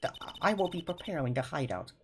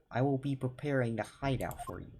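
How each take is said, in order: First: A hesitant, lightly put-on Russian accent on "I will be preparing the hideout", higher, each word spaced; first shaky try at a Russian waiter; a tentative mock Russian accent; Russian accent attempt. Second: Put-on a fuller but still light Russian accent on "I will be preparing the hideout for you", higher, with the h dropped in hideout; the waiter's line redone in a Russian accent; a hammed-up Russian waiter accent; Russian accent, second try. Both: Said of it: "how do I do a Russian accent?".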